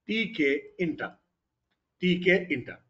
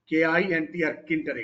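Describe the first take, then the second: First: The letters T and K are spoken aloud. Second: The T is silent, said as kinter. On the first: "foreigners ఏమంటారు అంటే టీకే ఇంటర్" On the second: "ఇక్కడ టీ silence"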